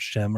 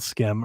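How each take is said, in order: First: The name begins with an sh sound. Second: The name begins with an sk sound. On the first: The speaker calls it wrong. "I thought it was Shim" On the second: The speaker calls it right. "the developer on the showcase said Skim"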